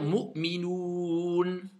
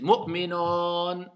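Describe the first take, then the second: First: The last syllable has an 'oo' vowel. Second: The last syllable has an 'o' vowel. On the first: The speaker calls it right. "je dois dire Mu'minoun" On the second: The speaker calls it wrong. "Est-ce que ça, c'est un OU? Non"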